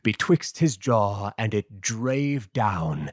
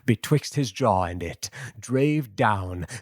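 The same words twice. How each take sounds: First: The pause comes after 'jaw'. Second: The pause comes after 'it'.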